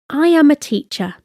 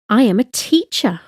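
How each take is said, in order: First: Said in the usual way. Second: "teacher" carries the emphasis; stress on TEACHER. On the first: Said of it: "No emphasis". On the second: Shown as a demonstration. Language teacher showing learners emphasis, stressing "teacher". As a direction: lean on the word "teacher". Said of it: "with an emphasis on teacher".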